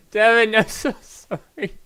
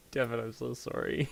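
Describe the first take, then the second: First: Much higher and louder put-on apology; mock high voice. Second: Said in the usual way. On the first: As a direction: squeak the apology out in a hammed-up character voice. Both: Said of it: "your voice goes soft when you play Sanric".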